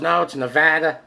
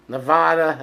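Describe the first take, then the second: First: "Nevada" said nuh-VAD-uh, as in "cat"; corrective pronunciation. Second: "Nevada" said nuh-VAH-duh; broad middle vowel. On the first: Retold or imitated. Everyone correcting him on the state, "Nevada" as nuh-VAD-uh. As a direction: mimic a corrector with short A in "Nevada". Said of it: "Everyone goes". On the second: Shown as a demonstration. Naming the state his own way, "Nevada" as nuh-VAH-duh. Own pronunciation against everyone's.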